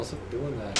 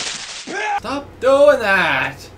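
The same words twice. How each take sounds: First: Said in the usual way. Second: Drawn out and louder; slow loud exclamation. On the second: Real, not acted. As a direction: stretch it out, loud.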